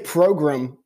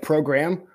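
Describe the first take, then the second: First: The word is said in a fancy, snobbish way. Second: The word is said in a plain, ordinary way.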